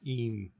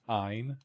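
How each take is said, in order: First: The vowel differs from the start of Einstein. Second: It sounds like the start of Einstein. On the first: The speaker calls it wrong. "everyone always mispronounces as uh" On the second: The speaker calls it right. "as in Einstein"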